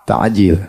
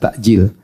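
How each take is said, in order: First: The middle sound is a throaty ain. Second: The middle sound is a glottal stop. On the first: It means hastened. The speaker calls it right. "Kalau pakai ain, disegerakan. Jadi yang benar" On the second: It means delayed. The speaker calls it wrong. "kalau orang Indonesia pakai hamzah"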